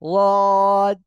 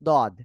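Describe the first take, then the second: First: The first consonant is a lateral, side-released sound. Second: The first consonant is a plain d sound. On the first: The speaker calls it right. "জিহ্বার গোড়ার কিনারা উপরে মাড়ির দিক, মাড়ির দাঁতের সঙ্গে লাগিয়ে" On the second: The speaker calls it wrong. "জিহ্বার আগা এই দুই দাঁতের গোড়ার দিকে লাগতেছে দদ"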